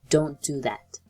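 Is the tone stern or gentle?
stern. It is said in a stern, harsh tone.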